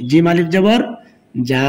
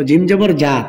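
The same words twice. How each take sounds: First: Final যা with a long held vowel; one-alif stretch. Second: Final যা with a short, quick vowel. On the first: Teacher showing learners the stretch, long final যা. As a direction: draw out the last যা. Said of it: "এক আলিফ টান". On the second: Teacher showing learners the quick reading, short final যা. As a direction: cut the last যা short. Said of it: "তাড়াতাড়ি হবে". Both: Shown as a demonstration.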